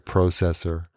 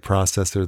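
First: It is said in a Canadian pronunciation. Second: It is said in an American pronunciation. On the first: "Canadians do say funny things. ... they say processor" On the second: "they don't say processor"

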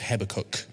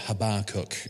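First: It is said in a standard British accent. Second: It is said in an American accent.

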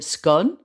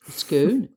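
First: The name has the non-Scottish pronunciation. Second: The name has the Scottish pronunciation.

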